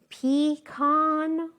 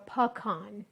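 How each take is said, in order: First: "pecan" said slowly as PEE-KAHN; pee-con pronunciation. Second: "pecan" said puh-KAHN, short first syllable; puh-kahn pronunciation. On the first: Cook comparing the ways Americans say it, "pecan" as slow pee-kahn. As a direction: draw out "pecan" with a long PEE and a KAHN ending. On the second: Cook offering the other way Americans say it, "pecan" as puh-kahn. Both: Shown as a demonstration. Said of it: "say it with the con".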